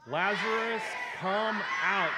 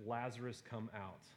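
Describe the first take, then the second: First: High, full-force calling shout; loud yell. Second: Said in the usual way. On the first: Acted. Preacher leading the group as Jesus calling Lazarus out, loud yell. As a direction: yell it out long and commanding. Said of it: "Jesus yells that in a loud voice". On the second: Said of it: "he cried out with a loud voice".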